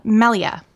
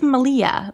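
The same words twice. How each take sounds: First: Malia as MEL-ee-uh; corrected attempt. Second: Malia as muh-LEE-uh; first attempt. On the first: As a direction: stress the start of Malia. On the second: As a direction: stress the middle of Malia. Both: Real, not acted.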